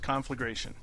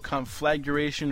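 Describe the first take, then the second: First: No extra sound follows 'flag'. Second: An extra 'you' sound follows 'flag'. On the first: The speaker calls it right. "It's just conflagration" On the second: The speaker calls it wrong. "There's no conflagration"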